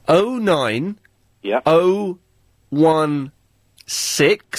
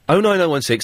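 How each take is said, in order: First: It is said slowly. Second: It is said fast.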